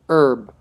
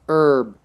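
First: It is said the American way. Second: The same.

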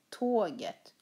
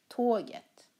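The two takes are said the same way.

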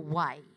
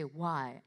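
First: It is said with an Indian accent. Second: It is said with a Western accent. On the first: The speaker calls it wrong. "I heard as, oh, why. Why is very Indian" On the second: The speaker calls it right. "You have to say why"

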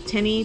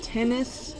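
First: The word ends in an 'ee' sound. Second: The word ends in an 'is' sound. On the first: "I say tenny, T-E-N-N-Y" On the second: "A lot of people say tennis"

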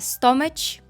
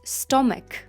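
First: The middle consonant is not a k sound. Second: The middle consonant is a plain k sound. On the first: The speaker calls it wrong. "не кажіть, будь ласка, stomach. Такого немає" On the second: The speaker calls it right. "У нас є натомість stomach"

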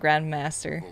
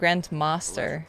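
First: It is said without a British accent. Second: It is said with a British accent. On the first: This is the speaker's usual pronunciation. "instead of Grandmaster" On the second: The pronunciation was picked up from something heard. "Lara has like a British accent, I caught myself saying Grandmaster"

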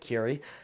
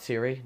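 First: The name begins with a k sound. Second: The name begins with an s sound. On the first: The speaker calls it right. "That's how you pronounce it" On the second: The speaker calls it wrong. "not Siri"

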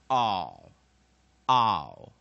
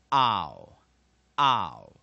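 No difference in how they are said.

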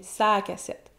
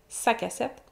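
First: The vowel in 'sa' is drawn out longer. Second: The vowel in 'sa' is short. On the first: Something is on the cassette. "on le dit un petit peu plus longtemps" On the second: The cassette belongs to him. "le possessif"

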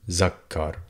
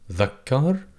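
First: The word begins with a 'z' sound. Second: The word begins with a voiced 'th' sound. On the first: "in dialect, people tend to replace it with Z for zebra" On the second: "it's pronounced as the TH in this and that"

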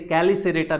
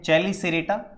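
First: The word begins with a k sound. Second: The word begins with a ch sound.

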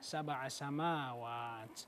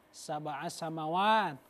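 First: The vowel in samawat is held long. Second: The vowel in samawat is held short. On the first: The speaker calls it right. "Makanya panjang ya Pak ya" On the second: The speaker calls it wrong. "katanya begitu"

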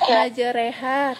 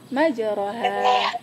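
First: The vowel after r sounds like e. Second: The vowel after r sounds like o. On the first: The speaker calls it right. "Kayak tadi, majereha" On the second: The speaker calls it wrong. "tapi Kakak bacanya majeroha"

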